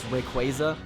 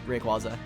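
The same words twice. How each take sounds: First: The name is said with its official pronunciation. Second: The name is said with a nonstandard pronunciation. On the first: "the official pronunciation of it's Rayquaza" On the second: "I am always gonna call it Rayquaza"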